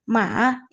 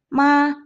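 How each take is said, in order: First: It is said with the third tone. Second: It is said with the first tone. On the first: It means horse. "Nada yang ketiga" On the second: It means mother. "nada pertama"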